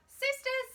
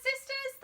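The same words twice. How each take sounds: First: High, louder call to the sisters. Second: High repeated call; calling again. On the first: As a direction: call the nuns to the pot. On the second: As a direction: call once more across the kitchen. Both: A narrator's reading. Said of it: "she called out".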